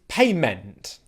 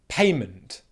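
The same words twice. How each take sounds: First: The last syllable has a full, spelled-out vowel. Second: The last syllable has a reduced schwa vowel. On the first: The speaker calls it wrong. "What most people would say is" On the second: The speaker calls it right. "how to pronounce the word correctly with the schwa pronunciation"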